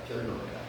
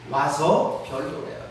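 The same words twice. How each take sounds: First: Soft echo. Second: Said in the usual way. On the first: Acted. God's call echoed, fading away.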